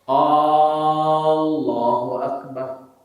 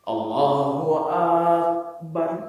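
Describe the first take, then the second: First: The opening vowel of Allah is drawn out. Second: The opening vowel of Akbar is drawn out. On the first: "Itu pertanyaan" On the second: "Panjang di kedua"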